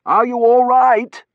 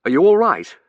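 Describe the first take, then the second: First: High, loud, drawn-out question; shout. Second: Loud, raised quick question; urgent concern. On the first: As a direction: shout your concern over the air raid. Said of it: "I shouted, looking at her". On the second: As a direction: anxiously check on someone pulled from rubble. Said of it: "we both said in unison". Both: A narrator's reading.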